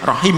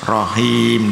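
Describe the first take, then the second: First: The vowel before the final m is short. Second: The vowel before the final m is long. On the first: The speaker calls it wrong. "tidak boleh rahim, tidak boleh" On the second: The speaker calls it right. "Rahimun kan panjang, maka wakafnya harus rahim"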